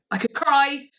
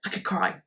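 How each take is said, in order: First: Higher and louder, welling up; louder, moved take on "I could cry"; emotional. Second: Said in the usual way. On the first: Real, not acted. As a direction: let it burst out, touched.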